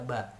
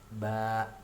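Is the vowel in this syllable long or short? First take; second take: short; long. First: The vowel is short. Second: The vowel is long. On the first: "huruf ba diberi baris fathah di atas dibaca ba" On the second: "ba panjang ba-nya"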